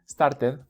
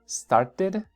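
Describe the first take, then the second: First: The t is made with the tongue sticking out. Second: The t is made with the tongue kept inside. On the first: The speaker calls it wrong. "Que acaben con la lengua de fuera. No, esa no. Started, no" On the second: The speaker calls it right.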